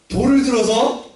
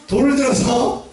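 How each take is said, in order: Both takes have the same delivery.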